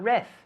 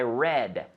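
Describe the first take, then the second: First: It ends with a soft, th-like sound. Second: It ends with a clear, hard D sound. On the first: The speaker calls it wrong. "not reth" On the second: The speaker calls it right. "we have to practice this"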